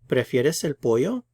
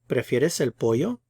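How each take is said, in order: First: The voice rises at the end. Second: The voice rises at the end.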